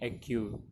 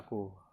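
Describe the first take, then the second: First: It is read with English letter sounds. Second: It is read with Indonesian letter sounds. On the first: "dibaca dengan aturan bahasa Inggris menjadi A Q" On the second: "kata aku tetap dibaca aku"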